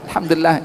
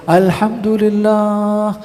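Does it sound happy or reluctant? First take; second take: reluctant; happy. First: It is said hesitantly, without joy. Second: It is said with great happiness.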